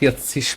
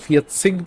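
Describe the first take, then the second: First: The word ends with a soft hissing ch sound. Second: The word ends with a hard k sound. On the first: This is how people in other regions say it. "আবার অনেক অঞ্চলে ফিয়াতসিস বলে" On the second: This is how people in some regions say it. "অনেক অনেক অঞ্চলে ওরা সিক বলে"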